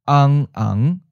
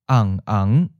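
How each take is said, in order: First: The first syllable stays low and flat. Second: The first syllable starts mid and falls. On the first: "again with a southern accent where the fifth tone changes to a seventh tone" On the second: "first with a northern accent where the fifth tone changes to third tone"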